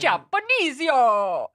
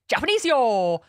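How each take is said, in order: First: It is said in a put-on Italian accent. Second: It is said in a put-on Japanese accent.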